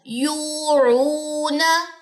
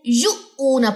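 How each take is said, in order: First: The long vowel flows smoothly without a jolt. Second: The long vowel is broken by a sudden jolt. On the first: The speaker calls it right. "झटका नहीं दिया जाएगा" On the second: The speaker calls it wrong. "यहाँ पे झटका दे देते हैं"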